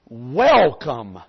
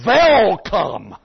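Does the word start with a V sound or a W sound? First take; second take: W sound; V sound. First: The word begins with a clear W sound. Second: The word begins with a V-like sound. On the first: The speaker is a native English speaker. The speaker calls it right. "they would get them to say" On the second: The speaker is a German soldier in disguise. The speaker calls it wrong. "in Germany, they cannot pronounce the W. They say"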